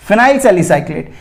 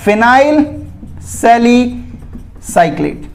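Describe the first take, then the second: First: Said in the usual way. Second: phenyl सैलिसाइक्लेट drawn out slowly, pause between the words; slow, broken-up naming. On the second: Shown as a demonstration. (Phenyl सैलिसाइक्लेट धीरे-धीरे, रुक-रुक कर) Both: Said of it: "उसे क्या बोलेंगे".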